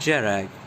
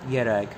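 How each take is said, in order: First: The name begins with a hard G sound. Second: The name begins with a Y sound. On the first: The speaker calls it wrong. "not Gerag" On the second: The speaker calls it right. "With the K being silent and the J being Y"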